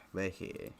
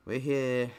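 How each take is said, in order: First: Quiet repeat. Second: Louder, higher call out; excited call. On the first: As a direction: say it again under your breath. Repeats it after the call. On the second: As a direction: announce it brightly, raised. Announcing arrival in game. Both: Real, not acted.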